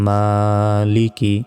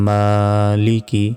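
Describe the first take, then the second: No difference in how they are said.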